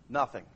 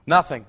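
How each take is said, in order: First: Soft, low, drawn-down reply; a low, quiet nothing; quiet answer. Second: Nothing. said louder and firm after a pause; a firmer, louder Nothing; emphatic repeat. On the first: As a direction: let it drop softly. Rhetorical answer, lions do nothing. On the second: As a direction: punch Nothing. as a flat verdict. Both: Acted.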